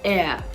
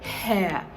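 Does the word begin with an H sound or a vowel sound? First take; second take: vowel sound; H sound. First: The word begins with a vowel sound. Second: The word begins with an H sound. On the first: The speaker calls it right. "the H is silent in this word" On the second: The speaker calls it wrong. "they are tempted to want to pronounce this as hair, hair, but it isn't"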